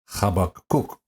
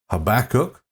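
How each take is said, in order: First: It is said in a Hebrew-like way. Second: It is said in a common English way. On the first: "in the Hebrew, it's more like Habakkuk" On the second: "some people say Habakkuk"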